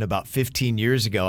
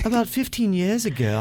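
First: It is read in the speaker's usual accent. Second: It is read slowly in a British accent.

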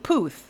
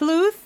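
First: No L sound follows the first consonant. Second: An L sound follows the first consonant. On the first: The speaker calls it right. "and without" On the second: The speaker calls it wrong. "I'm saying it with an L"

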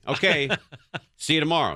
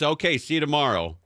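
First: There is a pause after okay. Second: Okay runs straight into see you tomorrow. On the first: The speaker calls it wrong. "no, there's no pause between okay and see you tomorrow" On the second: The speaker calls it right. "there's no pause between okay and see you tomorrow"

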